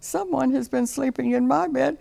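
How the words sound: It is said in Baby Bear's little voice.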